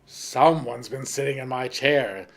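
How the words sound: The voice is deep, gruff and rough. "in his great rough voice"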